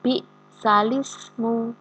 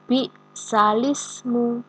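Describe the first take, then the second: The two takes are said the same way.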